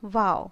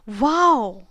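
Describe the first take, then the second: First: It is said flatly, without excitement. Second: It is said with sudden excitement.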